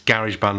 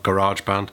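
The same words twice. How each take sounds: First: Garage is said with a British pronunciation. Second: Garage is said with an American pronunciation. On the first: The speaker calls it right. "it's GarageBand" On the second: The speaker calls it wrong. "not GarageBand. Um, I'm only joking, Americans"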